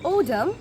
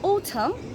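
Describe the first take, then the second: First: It is said in an American accent. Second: It is said in a British accent. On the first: "in the American accent" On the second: "British অ্যাকসেন্টে সিজনসের name বলতে চাই"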